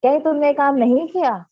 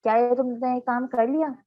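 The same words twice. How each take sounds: First: Louder surprised question, falling at the end; astonished question. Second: "लिया" lifted at the end as a question; question tune. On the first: Teacher demonstrates a negative question to students, astonished. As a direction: ask in mild disbelief, voice raised. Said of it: "उसमें हम हैरानी का भी इजहार करें". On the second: Teacher gives students an example question, rising on "लिया". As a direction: ask it plainly, ending on a rising "लिया". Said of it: "मतलब सवाल किया जा रहा होता है". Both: Shown as a demonstration.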